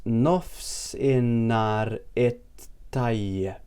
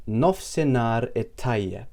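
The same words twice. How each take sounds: First: Nofsinhar it Tayyip very slowly, syllable by syllable; slow demonstration. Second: Nofsinhar it Tayyip pronounced carefully, unhurried; Maltese phrase. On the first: Teacher breaks down good afternoon for learners, very slow syllables. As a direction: stretch it out, pausing before Tayyip. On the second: Teacher shows good afternoon in Maltese, careful pronunciation. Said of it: "Here it is". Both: Shown as a demonstration.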